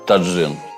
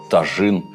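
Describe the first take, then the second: First: The middle consonant is pronounced as 'dzh'. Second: The middle consonant is pronounced as 'zh'. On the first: "Мне приятнее говорить таджин" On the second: "Или тажин"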